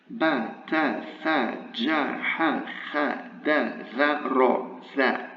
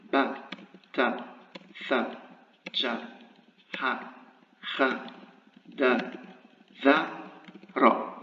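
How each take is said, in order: First: "ba, ta, tha" with the vowel held long; letters from "ba" to "za" each on a long a. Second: "ba, ta, tha" with a short a, pause after each; letters from "ba" to "ra" each cut to a short a; short vowel. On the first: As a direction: recite "ba, ta, tha" with drawn-out a sounds. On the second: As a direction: recite "ba, ta, tha" as brief separate syllables. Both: Shown as a demonstration. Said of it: "if we deal with a short vowel".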